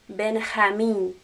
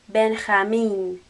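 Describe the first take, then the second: No difference in how they are said.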